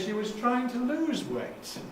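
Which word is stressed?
lose. The main stress falls on the word lose. She wanted to reduce weight, not gain it. "she wasn't trying to get heavier, she was trying to lose weight"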